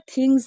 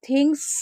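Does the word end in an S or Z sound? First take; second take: z; s. First: The word ends in a Z sound. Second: The word ends in an S sound. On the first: The speaker calls it right. "थिंग्स होता है, यानी कि last में जा आएगा" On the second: The speaker calls it wrong. "थिंग्स नहीं होता"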